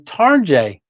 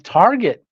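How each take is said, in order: First: The name ends with a soft 'jay' sound. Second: The name ends with a hard 'get' sound. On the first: The speaker calls it right. "but it's actually Tarjay" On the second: The speaker calls it wrong. "I would have gone Target"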